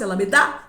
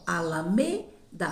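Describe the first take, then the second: First: The stress is on the last syllable. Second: The stress is on the third syllable. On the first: The speaker calls it wrong. "Se fosse Alameda, eu ia parar no da" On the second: The speaker calls it right. "minha sílaba tônica é mais forte da última palavra é o me"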